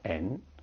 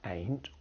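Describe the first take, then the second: First: The final T sound is left off. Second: The final T sound is clearly pronounced.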